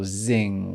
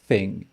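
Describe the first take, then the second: First: The word begins with a buzzing z sound. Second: The word begins with the tongue-between-teeth th sound. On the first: The speaker calls it wrong. "ou zing" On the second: The speaker calls it right. "On veut entendre thing"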